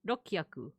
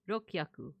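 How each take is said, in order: First: The u vowel is dropped between k and h. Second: The u vowel is dropped between k and h.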